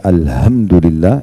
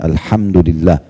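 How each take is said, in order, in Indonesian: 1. Bunyi h ringan dan biasa saja. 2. Bunyi h membawa udara berhembus ekstra. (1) "kalau Bapak Ibu ganti menjadi ha" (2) "Ha pakai ha, ha itu sedikit ada angin dari mulut"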